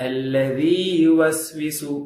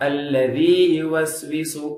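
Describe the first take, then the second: Both takes have the same delivery.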